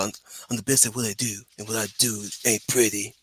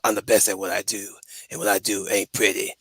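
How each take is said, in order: First: It is said in Peter Petrelli's voice. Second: It is said in a typical Wolverine voice.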